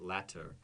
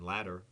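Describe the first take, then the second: First: The middle T is a crisp, clear T. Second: The middle T sounds like a soft D. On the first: "there's my limited British accent for one word" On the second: "same pronunciation, ladder"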